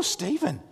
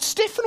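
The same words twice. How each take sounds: First: "Stephen" said with a long ee and v; first syllable of "Stephen" like "steep", then a v; STEE-ven pronunciation. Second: "Stephen" said with a short e and f; first syllable of "Stephen" rhymes with "chef"; STEFF-en pronunciation. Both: Retold or imitated. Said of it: "Is it Stephen or Stephen?".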